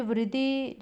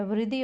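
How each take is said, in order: First: वृद्धि said as "vra-dhee"; wrong first vowel. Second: Said in the usual way. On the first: Shown as a demonstration. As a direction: put "vra" for "vri" in वृद्धि. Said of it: "वृद्धि नहीं होता". (वृद्धि को "व्रद्धी" बोलते हुए) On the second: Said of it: "वृद्धि होता है".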